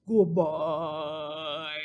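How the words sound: It is said in a big, low voice.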